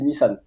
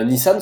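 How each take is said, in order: First: Nissan ending in a full n; sounded final n. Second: Nissan with a French nasal ending; Quebec pronunciation. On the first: Car expert showing what nobody in Quebec says, sounded n. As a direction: say Nissan as "ni-sanne". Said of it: "Personne ne dit Nissan". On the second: Car expert showing how Quebec says it, nasal ending. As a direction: say Nissan as "ni-san", the n not sounded. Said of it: "se prononce Nissan au Québec". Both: Shown as a demonstration.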